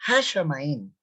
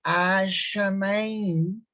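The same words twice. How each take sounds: First: "Hashamayim" with an audible J-like h at the start; wrong pronunciation. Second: "Hashamayim" slow, with a silent h, as a-shamayim; correct pronunciation. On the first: Teacher showing what not to say, "Hashamayim" with hard h. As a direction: start "Hashamayim" on a rough, aspirated H. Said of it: "no es, no es". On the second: Teacher correcting the word, slow "Hashamayim" without the h. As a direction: stretch "Hashamayim" out, opening on a pure long A. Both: Shown as a demonstration.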